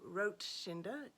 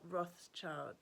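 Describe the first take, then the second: First: The name is said in a German style. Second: The name is said in an English style. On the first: The speaker calls it right. "the pronunciation for Rothschinder" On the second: The speaker calls it wrong. "is not Rothschild"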